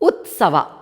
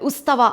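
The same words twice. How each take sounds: First: The t sound comes before the s sound. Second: The s sound comes before the t sound. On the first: The speaker calls it right. "ತಾಗೆ ಸಾವತ್ತು" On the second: The speaker calls it wrong. "ಸಾಗೆ ತಾವತ್ತು ಕೊಡ್ತಾ ಇದ್ದಾರೆ"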